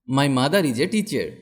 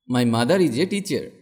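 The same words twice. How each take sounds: The two takes are said the same way.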